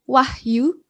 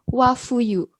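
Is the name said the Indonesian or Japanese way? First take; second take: Indonesian; Japanese. First: The h closes the first syllable without a vowel. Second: An extra 'fu' syllable replaces the h. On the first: "ada orang bernama Wahyu" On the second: "orang Jepang akan membacanya sebagai Wafuyu"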